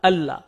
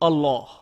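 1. Double L হালকা ও পাতলা করে উচ্চারণ করা হয়। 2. ডবল L ভারী ও গভীর করে উচ্চারণ করা হয়। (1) "আমরা হালকাভাবে উচ্চারণ করি" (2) "তাফখিম করি, অর্থাৎ ভাব গম্ভীর স্বরে উচ্চারণ করি"

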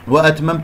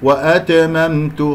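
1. الحروف الأخيرة ليّنة وفيها همس خفيف. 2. الحروف الأخيرة تُنطق مع قلقلة. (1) "التاء ساكنة فيها همس لطيف" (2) "خطأ، قلقلت التاء وقلقلت الميم الثانية"

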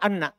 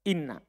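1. Kata itu diawali dengan vokal 'a'. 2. Kata itu diawali dengan vokal 'i'. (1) "Fathah. Baca anna" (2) "Selain itu, kasro"

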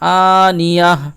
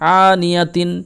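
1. শব্দটি একটি মৃদু h ধ্বনি দিয়ে শেষ হয়। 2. শব্দটি পূর্ণ '-tin' সমাপ্তি দিয়ে শেষ হয়। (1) "এখানেও আপনারা সাকিন করে নেবেন, দিয়ে আনিয়াহ বলবেন" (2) "তা দুজের তিন"

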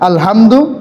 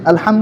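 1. 'ha' ধ্বনিটি বড় করে উচ্চারণ করা হয়েছে। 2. 'ha' ধ্বনিটি সাধারণভাবে উচ্চারণ করা হয়েছে। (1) "এই হাটা যদি আপনি একটু বড় করে উচ্চারণ করেন" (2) "আলহামদু মানে সমস্ত প্রশংসা"

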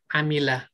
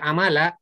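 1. Vokal kedua adalah bunyi 'i'. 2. Vokal kedua adalah bunyi 'a'. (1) "Yang benar adalah amilah" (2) "kalau dibaca amala eh, da- kalau bentuknya fi'il madhi itu kurang tepat"

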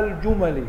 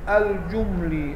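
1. الميم لا تتبعها حركة. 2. الميم تتبعها فتحة. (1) "وينفع إيه؟ إسكان الميم" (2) "ينفع فتح الميم"

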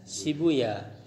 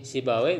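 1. Nama itu berakhir dengan bunyi 'ooya'. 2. Nama itu berakhir dengan bunyi 'away'. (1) "bisa dibaca sibuya" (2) "Jadi si bawe bisa dibaca sibuya"

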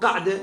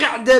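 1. الحركة الأولى صوت 'a'. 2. الحركة الأولى صوت 'i'. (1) "فإذا قرأت بالفتح دلالة على تعدد القعدة" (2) "قعدة بالكسر يعني حالة القعود"

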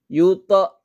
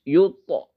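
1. Pantulan pada t terdengar berlebihan dan dipaksakan. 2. Pantulan pada t terdengar ringan dan alami. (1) "Kalau dibuat-buat itu kayak gini" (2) "tapi itu pantulannya secara otomatis"

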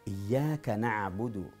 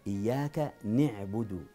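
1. يُنطق حرف المضارعة بحركة "a". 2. يُنطق حرف المضارعة بحركة "i".

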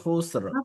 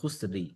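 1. শব্দটি দ্বিত্ব ব্যঞ্জনের একটি গুচ্ছ দিয়ে শেষ হয়। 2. শব্দের শেষে একটি ছোট 'ই' স্বর যোগ করা হয়েছে। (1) "এটা হলো এক্সাক্ট তাজভিদ।" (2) "খুসরি জের দিয়ে পড়লে মানে অর্থের ভিতরে পরিবর্তন হবে না"

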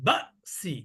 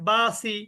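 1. শব্দটির মাঝখানে হঠাৎ একটা আটকানো ভাব আছে। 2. শব্দটি কোনো থামা ছাড়াই মসৃণভাবে উচ্চারিত হয়। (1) "উচ্চারণটা আরো বেশি ধাক্কা হবে" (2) "তাহলে কিন্তু সঠিক হলো না উচ্চারণটা"

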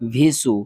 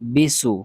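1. এই অক্ষরটি v ধ্বনি দিয়ে শুরু হয়। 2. এই অক্ষরটি b ধ্বনি দিয়ে শুরু হয়। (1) "আমরা অনেকেই পড়ি ভিসু ... এগুলা উচ্চারণ হবে না" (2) "এগুলা উচ্চারণ হবে না"

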